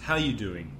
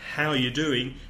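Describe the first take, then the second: First: It is said at normal, quick speed. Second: It is said slowly, every word separate.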